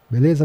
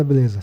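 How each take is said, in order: First: "Beleza" with a rising questioning end; asking for agreement. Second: "Beleza" with a falling, settled end; confirming answer. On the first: Renato checks the deal with Dedé, questioning rise on "Beleza". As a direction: put "Beleza" as a quick check. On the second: Dedé agrees to the deal, falling tune on "Beleza". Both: Retold or imitated.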